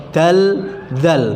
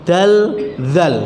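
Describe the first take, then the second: No difference in how they are said.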